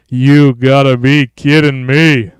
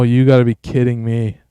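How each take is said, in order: First: Slow, punched-out mock exclamation; hammed-up disbelief. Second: Said in the usual way. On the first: Streamer reacting to the new look, hammed-up drawn-out disbelief. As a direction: drag out every word with force. Repeats line, drawn out and louder.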